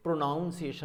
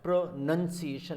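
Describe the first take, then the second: First: "pronunciation" mispronounced with "noun" in it; wrong "pronunciation". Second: "pronunciation" in careful slow parts, "nun" second; correct "pronunciation". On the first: Teacher warning students off the mistake, wrong pronunciation. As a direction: say "pronunciation" as "pronoun-ciation". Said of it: "नहीं करना". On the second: Teacher showing where to put pressure, careful correct pronunciation. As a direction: say "pronunciation" with a clear short "nun". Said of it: "is the right word". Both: Shown as a demonstration.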